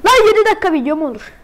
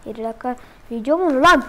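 First: Louder, faster, outraged; exasperated shout. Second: Said in the usual way. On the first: Real, not acted. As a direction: yell it in disbelief. Streamer complaining about restart.

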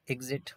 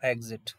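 First: एग्जिट begun with a short "i", as "ig-zit"; short-i first vowel. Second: एग्जिट begun with an "e", as "eg-zit"; e first vowel. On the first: Teacher showing students the first of two sounds, एग्जिट as "ig-zit". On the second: Teacher showing students the second of two sounds, एग्जिट as "eg-zit". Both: Shown as a demonstration. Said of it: "दो, दो sound है".

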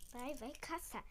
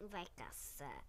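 First: Said in the usual way. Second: Much lower, quiet growl; deep monster voice. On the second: Pretend. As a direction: drop into a big beast voice. Repeated in monster voice.

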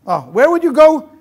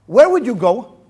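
First: Louder, higher repeat of the question; mock-wondering repeat. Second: Said in the usual way. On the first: Shown as a demonstration. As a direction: tease the crowd with a raised, wondering echo.

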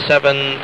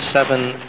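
Both takes have the same delivery.

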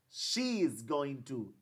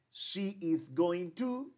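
First: Slow, "she" stressed, falling; slow repeat. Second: Very slow, "to" rising; slow long form. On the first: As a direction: repeat slowly, ending down. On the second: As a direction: stretch each word for learners. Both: Shown as a demonstration. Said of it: "Aquí yo digo".

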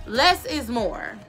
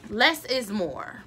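Both takes have the same delivery.

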